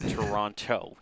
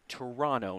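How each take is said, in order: First: The name is said the non-local way. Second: The name is said the local way. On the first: The speaker calls it wrong. "not Toronto. You will you get in trouble with the locals" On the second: The speaker calls it right. "it is Toronto"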